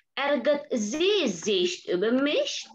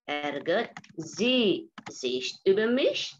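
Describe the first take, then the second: First: Ärgert sie sich über mich? drawn out with a rising end; slow model question. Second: Even slower, steady rise on mich; Ärgert sie sich über mich? spoken slowly, ending up on mich; slow repeat. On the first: Teacher modelling a German question for students, slow and rising. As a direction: ask it slowly, rising to the end. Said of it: "teacher models question, repeats". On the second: Teacher repeating the question for students to copy, slow. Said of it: "teacher repeats question". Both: Shown as a demonstration.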